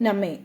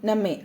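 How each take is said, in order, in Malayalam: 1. ആദ്യത്തെ സ്വരാക്ഷരം ഹ്രസ്വമായി ഉച്ചരിക്കുന്നു. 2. ആദ്യത്തെ സ്വരാക്ഷരം ഹ്രസ്വമായി ഉച്ചരിക്കുന്നു.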